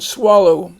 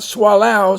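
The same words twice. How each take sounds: First: The last syllable has a long O vowel. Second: The last syllable has a different vowel. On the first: The speaker calls it right. "notice the O here has the long O sound" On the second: The speaker calls it wrong. "Not swallow"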